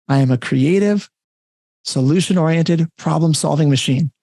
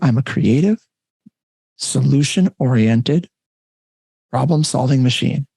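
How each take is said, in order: First: It is spoken at a normal, everyday speed. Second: It is spoken slowly and deliberately. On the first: "I'll say it normal speed once" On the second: "I'll say it slowly if you want to write it down"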